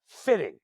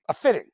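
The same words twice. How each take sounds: First: Said in the usual way. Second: Fitting repeated louder, punched and falling; stress on fitting. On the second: Retold or imitated. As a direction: hit the word fitting hard the second time.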